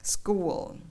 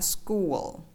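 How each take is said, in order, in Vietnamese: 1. Từ school kết thúc bằng âm L tối. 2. Từ school kết thúc bằng âm L tối.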